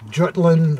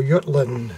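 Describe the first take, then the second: First: Said in the usual way. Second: Jutland said German-style, opening with a Y sound; German pronunciation. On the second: Shown as a demonstration. Host gives collectors the battle's German name, "Jutland" with a Y. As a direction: say "Jutland" as YOOT-land, as Germans do. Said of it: "as the Germans would say".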